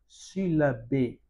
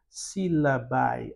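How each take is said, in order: First: The final vowel is pronounced as 'e'. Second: The final vowel is pronounced as 'ai'. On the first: This is the ecclesiastical Latin pronunciation. "nós não pronunciamos o A, somente o E ... no caso da pronúncia eclesiástica" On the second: This is the reconstructed Latin pronunciation. "se nós utilizarmos a pronúncia reconstituída, nós iremos falar desta forma"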